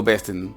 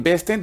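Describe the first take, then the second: First: "besten" as a low bestn; t straight into n in "besten"; silent E. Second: "besten" higher, with a clear -ten; full second E. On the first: Teacher contrasting her pronunciation, low bestn for "besten". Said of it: "hacen una E muda". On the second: Teacher contrasting what not to say, raised full "besten". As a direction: lift "besten" and sound both e's. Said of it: "En vez de decir". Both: Shown as a demonstration.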